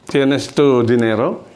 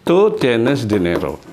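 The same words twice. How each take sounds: First: Slow, rising question; "Tienes tú dinero?" slow, rising on dinero; careful rising question for students; question tune. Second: Slow, falling at the end; "Tú tienes dinero?" slow with falling close; statement order. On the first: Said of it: "jadi kalimat bertanyanya menjadi". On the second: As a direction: model sentence before adding question tune. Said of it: "tapi dengan nada tanya". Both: Shown as a demonstration.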